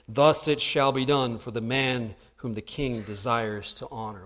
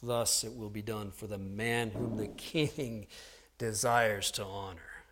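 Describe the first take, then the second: First: It is said at a normal pace. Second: It is said slowly, savoring each word.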